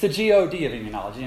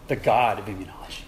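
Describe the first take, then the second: First: God is spelled out letter by letter. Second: God is said as one whole word. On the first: The speaker calls it right. "It's the G-O-D of immunology" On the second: The speaker calls it wrong. "It's not the God of immunology"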